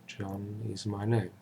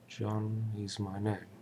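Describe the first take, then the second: Both takes have the same delivery.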